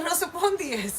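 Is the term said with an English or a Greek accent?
Greek. It is said with a Greek accent. "now I said it in a Greek way"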